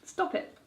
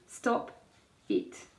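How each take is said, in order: First: The two words run together as one. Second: The two words are said separately. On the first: The speaker calls it right. "another weird word that's like" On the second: The speaker calls it wrong. "rather than"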